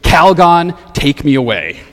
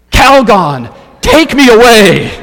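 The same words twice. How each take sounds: First: Loud first word, then dropping back to talk; toned-down slogan, punched only on the name; quoted catchphrase. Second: Loud, high plea shouted to the heavens; crying out. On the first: Retold or imitated. Preacher quotes an old commercial's slogan to the congregation, lightly punched. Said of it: "with the catchphrase". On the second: Acted. Frazzled woman begs bath product for rescue, crying out loudly. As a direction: belt it out like an overwrought commercial heroine. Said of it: "and she cries out".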